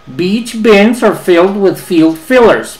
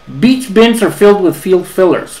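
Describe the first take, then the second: First: It is said slowly, word by word. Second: It is said at a faster pace. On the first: "palabra por palabra" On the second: "vamos a intentarlo más rápido"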